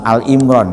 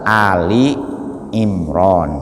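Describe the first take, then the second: First: The first word is a single syllable, Al. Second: The first word has two syllables, Ali. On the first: The speaker calls it wrong. "bukan Al Imron ya ... keliru" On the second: The speaker calls it right. "Yang betul itu surat Ali Imron"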